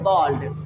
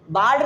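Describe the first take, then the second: First: The vowel sounds like 'aw'. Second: The vowel sounds like 'ah'. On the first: The speaker calls it right. "B A L D को पढ़ेंगे बॉल्ड" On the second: The speaker calls it wrong. "बाल्ड नहीं पढ़ेंगे"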